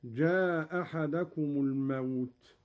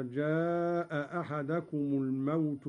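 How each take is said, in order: First: "جاء أحدكم" joined with a single hamza, jaa-ahadakum; first hamza dropped. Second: Said in the usual way. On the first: Shown as a demonstration. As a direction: drop the final hamza of "جاء" before "أحدكم". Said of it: "قرأ قالون بإسقاط الهمزة الأولى". (إسقاط الهمزة الأولى في "جاء أحدكم") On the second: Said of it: "بإسقاط الهمزة الأولى".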